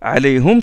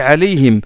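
First: The last syllable is said with a u vowel. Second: The last syllable is said with an i vowel. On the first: This follows one reading tradition consistently. The speaker calls it right. "Alayhum, c'est qira'at Hamza Zayyat" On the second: This mixes two different reading traditions. The speaker calls it wrong. "J'ai pas dit alayhim"

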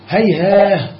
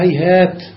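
First: The word ends with an h sound. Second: The word ends with a t sound. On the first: This is the form used when pausing. "قرأ الكسائي والبزي هيهاه عند الوقف" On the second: This is the original form. "وأصلها هيهات"

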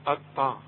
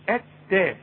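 First: The t sound is heavy and emphatic. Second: The t sound is light and thin. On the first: The speaker calls it wrong. "بذمتك تنفع اطا دي؟" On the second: The speaker calls it right. "رقق لي التاء"

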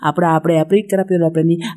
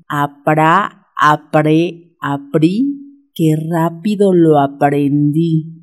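First: The tongue twister is said at a fast pace. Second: The tongue twister is said at a moderate pace.

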